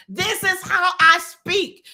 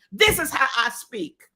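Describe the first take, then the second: First: Higher, louder, slower, stressing I; emphatic repeat. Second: Said in the usual way. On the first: Retold or imitated. Mother defying her son's killers, slow loud stress on I. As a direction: lean hard on I, slow and loud. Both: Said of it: "Mamie was saying".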